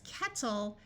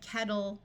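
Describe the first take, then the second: First: The middle consonant is a clear T sound. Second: The middle consonant sounds more like a D. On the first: "while the word is kettle" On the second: "people will generally pronounce it more like kettle"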